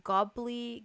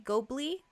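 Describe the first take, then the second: First: "Gobly" with an "ah" in the first syllable; "Gobly" sounded out with a short, open o; trying a pronunciation. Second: "Gobly" with a long o, questioning rise; "Gobly" as GOH-blee, pitched up like a question; trying a pronunciation. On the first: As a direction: say "Gobly" as GAH-blee. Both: Real, not acted. Trying two readings of a name.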